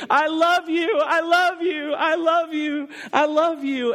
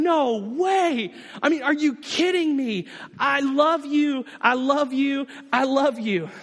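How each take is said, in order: First: High, loud, tearful cries; retold weeping cry. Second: Joyful outburst. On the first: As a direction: sob it out like an overwhelmed child. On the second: Pretend. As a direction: pour out overjoyed love like a thrilled child. Believer running to God.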